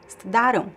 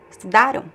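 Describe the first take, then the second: The two takes are said the same way.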